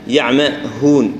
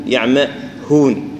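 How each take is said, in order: Both takes have the same delivery.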